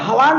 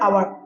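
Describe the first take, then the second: First: The word begins with an h sound. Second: The word begins with a vowel sound. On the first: The speaker calls it wrong. "এইটোতো আমি হাৱাৰ নপঢ়ো" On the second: The speaker calls it right. "আৱাৰ হ'ব"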